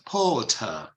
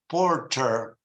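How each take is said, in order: First: The R after the vowel is silent. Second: The R after the vowel is pronounced. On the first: "British English, it's porter" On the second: "They say porter"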